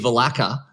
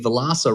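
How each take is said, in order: First: The middle consonant is a k sound. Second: The middle consonant is an s sound. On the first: The speaker calls it wrong. "you still hear Vilaka every time" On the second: The speaker calls it right. "thank you so much for getting Vilasa right"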